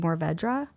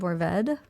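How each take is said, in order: First: The word ends with an audible "ruh" sound. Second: The word ends without a final "ruh" sound. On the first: The speaker calls it wrong. "A lot of people want to say Mourvèdre" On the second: The speaker calls it right. "you don't say that R E at the end"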